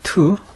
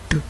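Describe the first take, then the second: First: The t sound is strongly aspirated. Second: The t sound is tense and unaspirated. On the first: This follows the Erasmian pronunciation. "따우를 트" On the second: This follows the classical pronunciation. "따우는 무성음 뜨"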